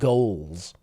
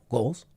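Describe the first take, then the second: First: The g sound at the start is strong. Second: The g sound at the start is light. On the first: The speaker calls it right. "we want to put more of a g" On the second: The speaker calls it wrong. "your this sound is a little bit too light"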